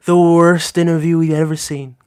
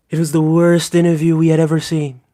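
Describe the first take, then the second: First: Trump impression repeated. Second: Lightly voiced Trump impression, leaning on worst; a hint of Trump, worst stretched and falling. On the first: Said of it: "How was that? Pretty decent". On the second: Streamer tries his Trump accent on viewers, lightly voiced. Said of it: "a brilliant Trump accent".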